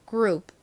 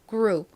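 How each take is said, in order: Both takes have the same delivery.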